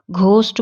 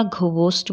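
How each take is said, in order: First: घोस्ट in one syllable; घोस्ट with nothing added after the g; silent-H question. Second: घोस्ट stretched to gho-host; घोस्ट in two beats, letter h sounded. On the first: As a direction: say घोस्ट as a simple ghost. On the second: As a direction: say घोस्ट with an extra breath syllable. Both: Shown as a demonstration. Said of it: "ये नहीं समझ पाते कि".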